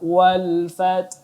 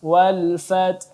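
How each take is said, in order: The two takes are said the same way.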